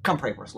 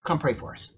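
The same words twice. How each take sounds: First: Quick, mock wise-guy request; wise-guy jerk. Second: Said in the usual way. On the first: Preacher imitates a drinker asking for prayer like a jerk. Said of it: "like, being a jerk". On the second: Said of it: "And he said".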